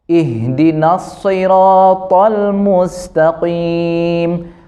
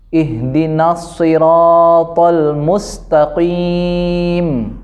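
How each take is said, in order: No difference in how they are said.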